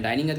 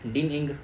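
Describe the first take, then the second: First: The first vowel is a long 'eye' sound. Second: The first vowel is a short 'i' sound. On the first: "डाइनिंग नहीं बोलेंगे हम" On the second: "डाइनिंग क्या बोलेंगे, डिन इंग"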